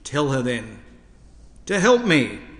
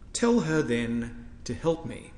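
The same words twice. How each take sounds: First: It is said in an exasperated, complaining tone. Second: It is read in a calm, formal churchly tone. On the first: "We might like to hear it like this" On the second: "I have read that in Anglican church tones"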